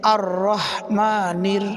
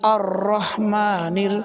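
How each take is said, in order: No difference in how they are said.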